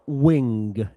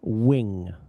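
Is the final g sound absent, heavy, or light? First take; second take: heavy; light. First: It ends with a strong, audible g sound. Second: It ends with only a slight g sound. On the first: The speaker calls it wrong. "and it's not wing" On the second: The speaker calls it right. "It's just a little g"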